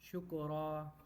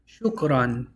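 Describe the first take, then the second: First: The word ends on a vowel, without n. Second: The word ends with an n sound. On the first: The speaker stops on the word. "if you were to stop and not say ran in it, you're going to say shukra" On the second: The speaker keeps going without stopping on the word. "You pronounce it shukran"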